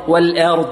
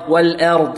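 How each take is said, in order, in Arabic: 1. الحركة بعد الهمزة مائلة نحو الكسرة. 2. الحركة بعد الهمزة مائلة نحو الكسرة.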